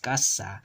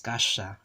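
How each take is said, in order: First: The s is a crisp, hissing s. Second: The s sounds close to sh. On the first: This is how it is said in the Philippines. "in Philippine Spanish, you'll pronounce this word casa as casa" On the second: This is how it is said in Spain. "but in Spain it's gasha"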